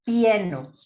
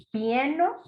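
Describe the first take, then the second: First: Said in the usual way. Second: "Pieno" lifted high at the end like a doubtful question; questioning rise. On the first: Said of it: "Por ejemplo". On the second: Shown as a demonstration. Teacher questioning whether the nonsense word exists, rising. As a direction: ask "Pieno" as if testing it. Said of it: "no existe".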